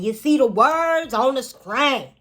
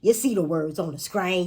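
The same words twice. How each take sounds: First: High, loud, slow twang; hammed-up twang, pitched way up; exaggerated twang. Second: Louder twang on the line; twangy, teasing delivery; playful twang. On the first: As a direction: stretch the twang out big and loud. Twang repeated bigger. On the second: Playful twang demo, first take. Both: Shown as a demonstration.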